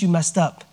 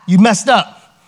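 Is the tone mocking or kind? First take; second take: kind; mocking. First: It is said in a gentle, loving tone. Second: It is said in a gloating, mocking tone.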